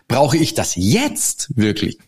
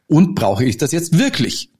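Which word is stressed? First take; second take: jetzt; wirklich. First: The stress is on jetzt. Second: The stress is on wirklich.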